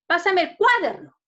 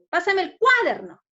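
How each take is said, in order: Both takes have the same delivery.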